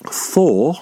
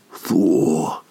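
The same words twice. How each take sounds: First: Said in the usual way. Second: Thor lower, drawn out and longing; lustful sigh. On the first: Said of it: "Doesn't that come from". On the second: Pretend. Mock swooning at an attractive person, low drawn-out sigh. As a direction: breathe Thor like a crush walked past. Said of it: "when someone sees someone they're attracted to".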